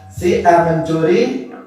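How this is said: It is said with a doubting, questioning tone. It is impossible that A stole; the accuser is lying. "kalimat pernyataan tetapi mengingkari"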